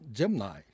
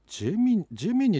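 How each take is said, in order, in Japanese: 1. この単語は 'nye' の音で終わります。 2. この単語は 'nee' の音で終わります。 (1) "海外ではアメリカではジェムナイ" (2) "日本では言うことになってる"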